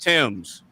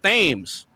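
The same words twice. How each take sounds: First: It is said like 'Tims', starting with 't'. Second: It is said as spelled, starting with 'th'. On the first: The speaker calls it right. "it's pronounced Thames" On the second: The speaker calls it wrong. "I used to think it was pronounced Thames"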